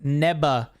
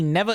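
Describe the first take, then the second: First: The middle consonant is a b sound. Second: The middle consonant is a v sound. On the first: The speaker calls it right. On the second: The speaker calls it wrong.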